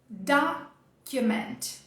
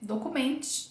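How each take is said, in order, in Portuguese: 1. A tônica cai na primeira sílaba. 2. A tônica cai numa sílaba posterior. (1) "O inglês vai trazer ela no começo" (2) "A gente olha para ela muito igual ao português"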